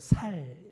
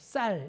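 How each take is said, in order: First: The word starts with a plain 's' sound. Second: The word starts with a tense 'ss' sound. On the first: The speaker calls it wrong. "살 맨날 이럽니다" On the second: The speaker calls it right. "쌍시옷 발음을 잘 못합니다. 그래서 쌀 이걸 못하고"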